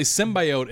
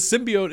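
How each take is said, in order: First: Symbiote said "SIM-bye-oat"; long "eye" in symbiote; alternative pronunciation. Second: Symbiote said "SIM-bee-oat"; long "ee" in symbiote; creator's pronunciation. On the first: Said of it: "far more popular ... as a pronunciation". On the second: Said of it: "that's how Stan Lee says it". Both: Shown as a demonstration.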